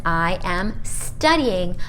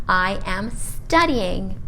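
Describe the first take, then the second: No difference in how they are said.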